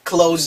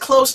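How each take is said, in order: First: The word ends with a buzzing z sound. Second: The word ends with a hissing s sound. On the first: It means to shut. "동사로 쓰니까 즈가 되죠" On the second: It means near. "부사나 형용사로 쓰일 때는 close"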